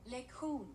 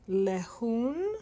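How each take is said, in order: First: The middle k sound is clearly pronounced. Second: The middle k sound is left out. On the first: The speaker calls it right. "so you do say the K" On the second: The speaker calls it wrong. "which I think is lehun"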